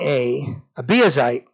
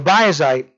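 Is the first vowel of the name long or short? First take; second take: long; short. First: The first vowel is a long A. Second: The first vowel is a short A. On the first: "some people have a long A"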